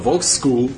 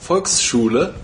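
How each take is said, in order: First: It is said with an American pronunciation. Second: It is said with a German pronunciation. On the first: The speaker calls it wrong. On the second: The speaker calls it right.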